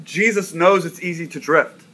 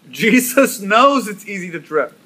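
First: Said in the usual way. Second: Knows lifted higher and pressed hard; stress on knows. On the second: Shown as a demonstration. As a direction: repeat it with weight on knows. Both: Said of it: "I want you to get this".

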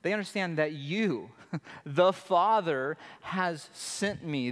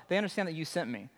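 First: Slow, weighty read landing hard on you, the Father; emphatic you. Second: Rattled off fast with no weight on you; flat hurried version of the quote; quick throwaway read. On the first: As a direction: lean into you, the Father, then slow down on has sent me. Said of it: "in Greek, it's emphatic". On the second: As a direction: toss the line away quickly. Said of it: "It's not like". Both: Shown as a demonstration.

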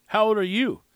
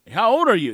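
First: Said in the usual way. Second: Louder, higher retold question; mock-frustrated, raised voice; a little frustrated. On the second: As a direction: imitate someone repeating a question with mild frustration. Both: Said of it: "He gets a little frustrated".

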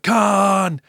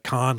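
First: Loud, high mock yell of the name; Kirk yell. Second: Said in the usual way. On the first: Imitating Captain Kirk yelling at his enemy, loud. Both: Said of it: "yelling out".

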